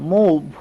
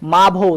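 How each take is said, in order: First: The vowel sounds like oo. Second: The vowel sounds like an open ah. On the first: The speaker calls it right. "এটা উচ্চারণ হয়ে যাবে এবার উ দিয়ে" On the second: The speaker calls it wrong. "মাভ উচ্চারণ করব না"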